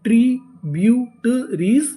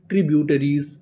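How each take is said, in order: First: Slow, drawn out with a rising end; slow spelled-out build. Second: Said in the usual way. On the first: Shown as a demonstration. Teacher slowly sounding the word for the class. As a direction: stretch each syllable, lift at the end. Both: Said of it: "पूरी meaning क्या बनी?".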